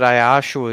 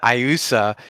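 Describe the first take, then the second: First: The name is said with a middle sh sound. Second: The name is said with a plain s sound. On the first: The speaker calls it right. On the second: The speaker calls it wrong.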